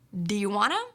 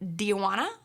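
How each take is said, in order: First: Want to is reduced to wanna. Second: The same.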